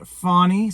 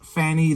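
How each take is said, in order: First: The first vowel is a broad 'aw' sound. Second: The first vowel is a flat 'a' sound. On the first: It avoids the childish joke about the name. "they're pronouncing it Fawny" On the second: It invites the childish joke about the name. "the childish Fanny"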